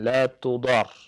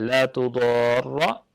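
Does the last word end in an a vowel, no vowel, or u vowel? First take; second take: no vowel; a vowel. First: The last word ends on r with no vowel. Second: The last word ends with a doubled r and a. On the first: "dengan sukun" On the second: "ro-nya ditasydid dan difathahkan"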